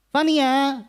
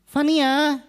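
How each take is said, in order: No difference in how they are said.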